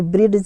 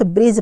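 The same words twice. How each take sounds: First: ब्रिज said wrongly as "brid-j"; ब्रिज with the D pronounced; sounded D. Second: ब्रिज said as "brij", no D; ब्रिज going straight to the J sound; silent D. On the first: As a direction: put an audible D before the J in ब्रिज. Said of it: "यहाँ पर डी नहीं आएगा". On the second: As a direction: say ब्रिज with the D left out. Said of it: "यहाँ पर सिर्फ ब्रिज पढ़ा जाएगा". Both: Shown as a demonstration.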